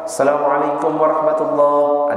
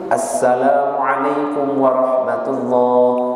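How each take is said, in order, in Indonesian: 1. Salam itu diucapkan asal-asalan, bunyinya berubah. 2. Salam itu diucapkan dengan tepat, setiap bunyi utuh. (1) "Itu gak sah itu" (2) "Yang benar itu"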